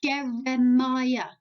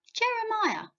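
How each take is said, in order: First: Jeremiah said slowly, syllable by syllable; slow model word. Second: Jeremiah said again much higher, bouncy; bright repeat. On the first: Teacher modelling Jeremiah slowly for kids to repeat. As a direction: spell out Jeremiah slowly for children to copy. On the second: Teacher repeating Jeremiah high and cheerful for kids. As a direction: lift Jeremiah up high as an encouraging echo. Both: Shown as a demonstration. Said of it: "Can you say Jeremiah?".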